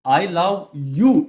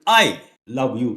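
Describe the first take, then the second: First: The stress is on the word you. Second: The stress is on the word I.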